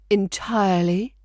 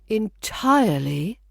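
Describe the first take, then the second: First: The word is said at a normal length. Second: The word is drawn out and lengthened.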